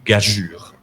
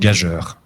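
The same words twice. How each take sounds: First: The final vowel is the 'u' sound, like 'pure'. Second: The final vowel is the 'eu' sound, like 'heure'. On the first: The speaker calls it right. "la bonne lecture, c'est gageure" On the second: The speaker calls it wrong. "j'ai fort mal prononcé"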